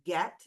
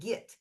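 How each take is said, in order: First: The vowel is a clear 'eh' sound. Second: The vowel is a reduced 'ih' sound. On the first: "it doesn't sound like get" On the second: "sounds like get"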